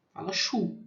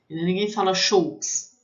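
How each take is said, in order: First: Choux said "shu", no final consonant; correct French. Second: Choux said like "shoks", a hard ks on the end; wrong pronunciation. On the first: Teacher showing students the right way to say choux. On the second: Teacher showing students the mispronunciation of choux. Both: Shown as a demonstration. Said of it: "vou falar a pronúncia correta".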